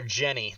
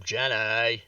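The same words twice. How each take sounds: First: Said in the usual way. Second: Lightly drawn-out Southern "Jenny", ending in "-ay"; a hint of simple Southern drawl on "Jenny"; Forrest Gump. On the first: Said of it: "I will call your character". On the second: Player teases co-host's character name, light Forrest Gump impression. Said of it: "[name] is playing Forrest Gump".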